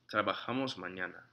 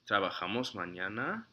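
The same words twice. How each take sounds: First: It is said as a statement, falling. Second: It is said as a question, rising. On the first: It states that we work tomorrow. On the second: It asks whether we work tomorrow.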